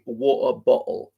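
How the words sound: The T sounds are replaced by glottal stops.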